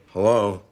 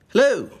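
First: It sounds bored and uninterested. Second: It sounds warm, friendly and inviting.

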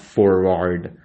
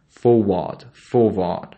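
First: The R sounds are pronounced after the vowels. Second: The R sounds are silent after the vowels. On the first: The speaker calls it wrong. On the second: The speaker calls it right.

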